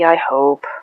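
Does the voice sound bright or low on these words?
low. The voice drops down and sounds deeper. The speaker does not really believe it. The speaker calls it wrong. "your voice goes down and a little bit deeper"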